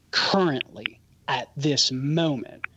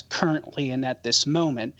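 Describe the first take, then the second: First: "currently" and "at this moment" slowed right down and set apart; emphatic stress. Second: Said in the usual way. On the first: Real, not acted. Apologist answering a caller's question, stressing "currently at this moment". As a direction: weigh "currently", pause, then stress "at this moment". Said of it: "notice I emphasize currently and at this moment". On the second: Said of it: "notice I emphasize".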